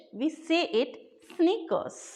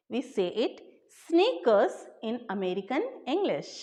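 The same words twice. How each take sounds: First: Teacher says sneakers slowly so students catch it; slow, careful teacher model. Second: Said in the usual way. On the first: Shown as a demonstration. Teacher to viewers, slow model word. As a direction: stretch out sneakers slowly, each sound clear. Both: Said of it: "But in American English".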